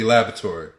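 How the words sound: It is said in an American-style pronunciation. "Here we say laboratory. That's just the way we pronounce it here in America"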